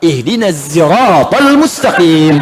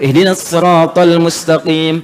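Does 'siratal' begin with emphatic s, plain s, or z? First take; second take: z; emphatic s. First: Siratal begins with a buzzing z sound. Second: Siratal begins with an emphatic, heavy s sound. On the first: The speaker calls it right. "pakai sai" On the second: The speaker calls it wrong. "pakai sad"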